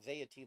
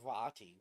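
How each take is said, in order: First: The name is said to rhyme with 'deity'. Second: The name is said without rhyming with 'deity'. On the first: The speaker calls it wrong. "That's how I was pronouncing his name. Veity, like deity" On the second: The speaker calls it right. "But it's Vati"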